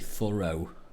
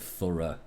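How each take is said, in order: First: It is said with an American accent. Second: It is said with a British accent. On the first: "the way they say thorough" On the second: "instead of thorough"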